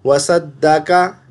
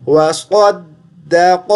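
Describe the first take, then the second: First: वसद्दक़ा with a light सीन sound, the mistake; wrong pronunciation. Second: वसद्दक slowly, with a heavy सौद and क़ाफ; correct pronunciation. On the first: Teacher shows the student the wrong सीन sound. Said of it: "ये सीन पढ़ दिया". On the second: Teacher gives the correct वसद्दक to the student. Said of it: "तो क्या पढ़ना है?". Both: Shown as a demonstration.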